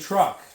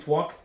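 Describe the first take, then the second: First: The word has a normal r sound. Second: The r is replaced by a w sound. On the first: It is the normal adult pronunciation. The speaker calls it right. "I want them saying truck" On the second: It imitates baby talk for fun. The speaker calls it wrong. "pronouncing words wrong"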